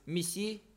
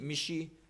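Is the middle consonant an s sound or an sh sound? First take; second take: s; sh. First: The middle consonant is a plain s sound. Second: The middle consonant is an sh sound. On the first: This is the standard form of the word. "au lieu de missi" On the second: This is the dialect form of the word. "dans ces dialectes, on dit michi"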